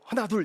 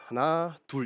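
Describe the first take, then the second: First: The count is said tensely and hurriedly. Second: The count is said in a relaxed, easy way.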